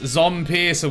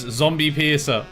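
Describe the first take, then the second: First: The first part is said as 'zom', one syllable. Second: The first part is said as 'zombie', two syllables. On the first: The speaker calls it right. "but it is Zompiercer" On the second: The speaker calls it wrong. "I did mispronounce it as Zombie Piercer"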